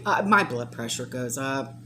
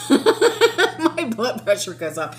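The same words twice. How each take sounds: First: Said in the usual way. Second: Slow, laughing at herself. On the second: Real, not acted. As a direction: chuckle through it, slowly.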